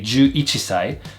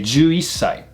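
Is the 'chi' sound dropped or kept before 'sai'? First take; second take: kept; dropped. First: The chi sound is kept before sai. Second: The chi is dropped and the s lengthened. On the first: The speaker calls it wrong. "I would not say juichisai" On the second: The speaker calls it right. "I would say juisai"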